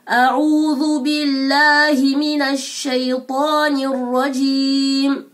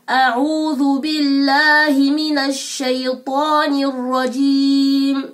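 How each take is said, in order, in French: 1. Les voyelles sont articulées pleinement, avec soin. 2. Les voyelles sont articulées pleinement, avec soin.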